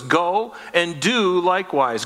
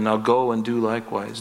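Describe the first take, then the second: First: Slow, with "Go" and "do" each punched; emphatic repeat. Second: Said in the usual way. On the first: Shown as a demonstration. Preacher pointing listeners to Jesus's command, emphatic stress on "Go" and "do". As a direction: lean on "Go", then on "do", spacing them out.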